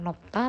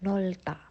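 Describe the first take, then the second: First: The first syllable ends with a P. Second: The first syllable ends with an L. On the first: The speaker calls it wrong. "atau nopta" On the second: The speaker calls it right. "tapi nolta"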